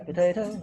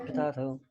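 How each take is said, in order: First: POTATO as puh-TAY-toh, rising. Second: POTATO as puh-TAH-toh. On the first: Teacher quotes the you-say variant, potato with AY. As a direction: say "potato" with a long AY in the middle. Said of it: "You say potato". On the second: Teacher gives the I-say variant, potato with AH. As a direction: say "potato" with a broad AH in the middle. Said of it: "I say potato". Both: Shown as a demonstration.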